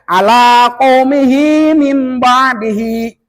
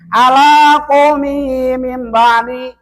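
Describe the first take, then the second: First: It is recited at a relaxed, clear pace. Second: It is recited too fast, with clipped sounds. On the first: The speaker calls it right. "Santai aja" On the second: The speaker calls it wrong. "Kadang-kadang kalau terlalu cepat ini"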